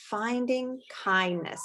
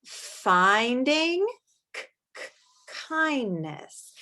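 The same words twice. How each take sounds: First: Said in the usual way. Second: Finding stretched, then K-, K- whispered before Kindness; a teacher modelling how to sound out a word; sounding out the title. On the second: Shown as a demonstration. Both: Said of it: "my mouth has to make the sound".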